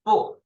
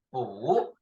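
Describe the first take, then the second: First: 不 short, in a falling tone; first sound. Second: 补 drawn out, rising in tone; second sound. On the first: Teacher contrasting two sounds, short falling tone. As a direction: drop 不 sharply and stop. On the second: Teacher contrasting two sounds, long rising tone. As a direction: stretch 补 and lift it upward. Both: Shown as a demonstration. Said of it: "We have two sounds of 不".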